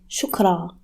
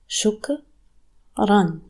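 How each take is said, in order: First: The word ends on a vowel with no final N. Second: The word ends with a final N sound. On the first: It is the form without the double vowel. "If you want to pronounce the alif, you say shukra" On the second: It is the full form with the double vowel. "Ra with double fatha makes ran"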